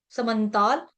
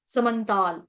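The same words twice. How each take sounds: The two takes are said the same way.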